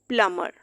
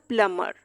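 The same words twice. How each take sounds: No difference in how they are said.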